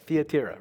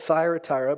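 First: The name is pronounced in a Greek way. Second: The name is pronounced in an English way. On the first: The speaker calls it right. "no, it's Thyatira. ... So I'm going to say it like the Greeks say it" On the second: The speaker calls it wrong. "every Bible scholar I listened to called it Thyatira, but that didn't sound like Greek to me"

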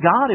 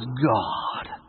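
First: It is said in a plain, ordinary voice. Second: It is said in a drawn-out, preachy voice.

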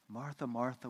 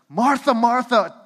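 First: It is said in a gentle, loving tone. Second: It is said in a harsh, scolding tone.

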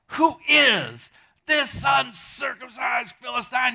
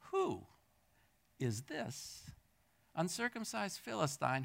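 First: It sounds taunting and confrontational. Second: It sounds curious and questioning. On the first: The speaker is taunting and belittling the opponent. "he said it more trash talk, kind of. Just like in his face" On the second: The speaker genuinely wonders who the opponent is. "I'm not sure if he said it inquisitively"

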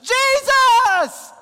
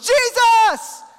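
First: It is an even louder yell. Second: It is a loud call.

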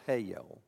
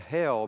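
First: It is drawn out with an added syllable. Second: It is one short syllable, plain accent.

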